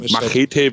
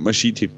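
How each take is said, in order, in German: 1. Das Wort wird mit deutscher Aussprache gesprochen. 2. Das Wort wird mit englischer Aussprache gesprochen.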